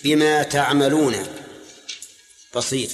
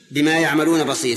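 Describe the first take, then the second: First: تعملون begun with a "ta" sound, drawn out slowly; reading with ta. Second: يعملون begun with a "ya" sound; reading with ya. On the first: Teacher showing students the second reading, slow تعملون with ta. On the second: Teacher giving students one Quran reading, يعملون with ya. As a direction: say يعملون with an initial y. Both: Shown as a demonstration. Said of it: "فيها قراءة ثانية".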